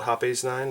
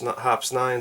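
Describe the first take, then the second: First: The name is said as two syllables. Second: The name is said as one syllable.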